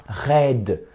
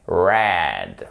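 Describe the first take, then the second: First: "red" with a French back-of-throat R. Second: "red" low and drawn out, strong American R. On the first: Teacher shows the mistake, "red" with a French R. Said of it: "c'est pas un red". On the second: Teacher corrects learners, "red" slow with an American R. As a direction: stretch "red" with a nasal Texan r. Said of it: "très nasal". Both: Shown as a demonstration.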